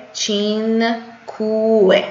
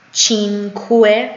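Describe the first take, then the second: First: چینکوه stretched very slowly, falling at the end; very slow repeat. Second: چینکوه slow with rising end; slow model. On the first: Teacher repeating so students copy: چینکوه very slow. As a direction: drag out چینکوه syllable by syllable, then drop. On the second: Teacher first reading the number aloud: چینکوه slow. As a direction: say چینکوه slowly, lifting the end. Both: Shown as a demonstration. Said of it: "من میخونم از روی عددا".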